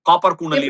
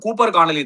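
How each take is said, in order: First: The first name has an 'ah' vowel. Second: The first name has an 'oo' vowel. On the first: The speaker calls it wrong. "ஆனா வாய் டங்கு ரோல் ஆயிடும்" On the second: The speaker calls it right. "இவன் வந்து கூப்பர் கானலி தான்"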